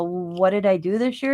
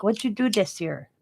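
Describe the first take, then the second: First: Said in the usual way. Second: Mildly mimicked Chinese-accented English; touch of put-on Chinese accent; imitated Chinese accent. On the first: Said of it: "And I go". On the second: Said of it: "And that's how he talked".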